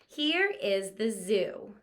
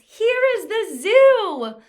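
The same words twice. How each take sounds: First: It is said calmly, falling like a statement. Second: It is said loudly and excitedly, like an exclamation. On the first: It simply tells something. The speaker calls it right. "So we read it just like this" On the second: It expresses strong feeling. The speaker calls it wrong. "or an exclamation mark sentence"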